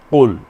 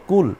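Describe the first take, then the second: First: কুল said louder from the back of the throat; Arabic qul. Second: কুল with a plain k; কুল as in the word for eat; Bengali kul. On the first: Teacher shows the Arabic কুল to students. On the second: Teacher shows the Bengali কুল first. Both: Shown as a demonstration. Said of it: "একটা হলো কুল, আর একটা হলো কুল".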